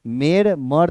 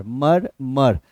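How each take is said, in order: First: "मेर मर" with an "e" vowel in the first syllable; wrong pronunciation demo. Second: "मर, मर" as two matching syllables; correct syllable pronunciation. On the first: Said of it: "मेर मर तो नहीं होगा". ("मेर मर" में पहला स्वर "ए" बोलकर गलत उच्चारण) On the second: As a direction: sound out "मर, मर" with the same vowel twice. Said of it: "pronunciation से इस स्पेलिंग को पकड़ा जा सकता है". ("मर, मर" दोनों सिलेबल एक जैसे, अलग-अलग) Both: Shown as a demonstration.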